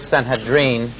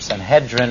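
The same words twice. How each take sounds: First: The word is said in a less familiar way. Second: The word is said in a familiar English way. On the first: "I'll use the word Sanhedrin" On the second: "or Sanhedrin, if that makes it easier on your ears"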